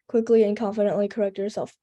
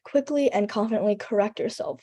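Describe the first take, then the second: First: It is read flatly with no word emphasis. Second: It is said with strong emphasis on certain words. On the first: The speaker seems to be just reading off a paper. The speaker calls it wrong. "You don't wanna sound like a robot" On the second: The speaker sounds passionate and invested. The speaker calls it right. "emphasize certain words will be like"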